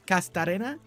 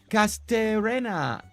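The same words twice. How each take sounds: First: The name is said with a Spanish accent. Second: The name is said with an English accent.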